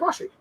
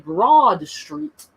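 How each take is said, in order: First: Sounds are dropped in a Philly accent. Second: Every sound of both words is said in full.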